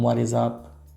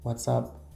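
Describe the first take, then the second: First: Each word is said separately and fully. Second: The first two words merge into one syllable.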